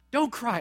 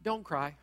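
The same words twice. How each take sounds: First: Said in the usual way. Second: Soft, gentle don't cry; quiet imitation of a comforter; hushed comforting quote. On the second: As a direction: say it softly, almost under the breath. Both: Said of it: "stand in front of the grieving mother and say".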